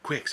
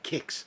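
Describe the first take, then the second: First: It begins with a KW sound. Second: It begins with a plain K sound. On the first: The speaker calls it wrong. "I was pronouncing the Q" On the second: The speaker calls it right. "you were supposed to pronounce it with like a K"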